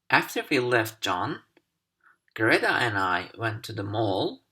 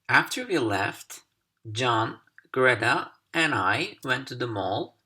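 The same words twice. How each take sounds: First: There is a pause right after John. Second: There is a pause right after left.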